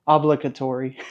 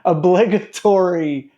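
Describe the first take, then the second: First: "Obligatory" starting with a stressed AH, OB-luh-guh-tory; Southern pronunciation. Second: "Obligatory" as uh-BLIG-uh-tory, drawn out; normal pronunciation. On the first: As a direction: stress the first syllable of "Obligatory", Southern style. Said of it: "Tell me if this sounds right". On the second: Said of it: "I told you". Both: Shown as a demonstration.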